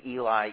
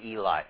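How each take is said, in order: First: It is pronounced the anglicized way. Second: The same.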